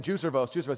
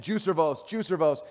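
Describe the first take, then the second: First: Said in the usual way. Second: Put-on a little louder and higher, retelling a child's chant; growing insistent. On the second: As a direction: repeat it more insistently, as the imitated kid. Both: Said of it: "It gets louder and louder".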